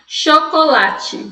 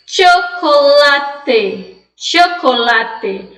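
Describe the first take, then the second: First: CHOCOLATE said slowly "sho-ko-la-tchi"; Portuguese chiado. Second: CHOCOLATE said slowly "tcho-ko-la-te"; Spanish CH. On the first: Teacher showing what Spanish does not allow, chiado. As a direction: hiss the CH as SH, end chocolate on "tchi". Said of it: "Olha aí o chiado". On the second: Teacher modelling correct Spanish reading for students, "tch". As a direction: start chocolate with "tch", end on hard "te". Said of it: "Você vai ler com o som de che". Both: Shown as a demonstration.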